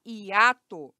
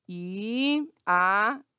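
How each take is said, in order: First: Said in the usual way. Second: "hiato" broken into i, a, to with pauses; separated syllables. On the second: Shown as a demonstration. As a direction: isolate each syllable of "hiato". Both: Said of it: "pra separar a sil".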